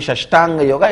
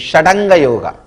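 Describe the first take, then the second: First: The middle has an 'sht' sound before anga. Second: The middle has a 'd' sound before anga. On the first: The speaker calls it wrong. "As per the Sanskrit rule, it should not be Shashtanga Yoga" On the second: The speaker calls it right. "it should be Shadanga Yoga"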